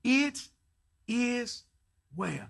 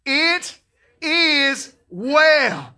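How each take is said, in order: First: It is well, each word apart; slow spaced words. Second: It is well shouted high; loud conviction. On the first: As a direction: say It, is, well with pauses. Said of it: "say it with me". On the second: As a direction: proclaim It is well with full faith. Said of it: "with all the conviction and faith". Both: Shown as a demonstration.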